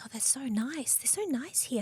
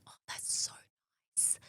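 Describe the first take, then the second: First: Lifted, soft, sweetly unaware; naive delight. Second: Breathy hushed whisper. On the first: Repeating her thanks about the kind clinic staff, softly naive. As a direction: play it innocent and pleased. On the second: Recalling her naive thanks to the clinic, whispered. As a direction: say it almost soundlessly. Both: Retold or imitated.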